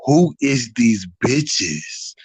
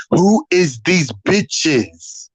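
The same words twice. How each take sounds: First: Low, very slow drawn-out challenge; slow menacing Leslie. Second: Very slow, syllable by syllable; talking in syllables. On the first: Imitating Leslie sizing up the room, slow and low. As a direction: drag every word like a big girl sizing you up. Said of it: "walked up like". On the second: Imitating how Leslie talked, in syllables. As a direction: chop it into separate syllables like Leslie. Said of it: "she talked in syllables". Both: Retold or imitated.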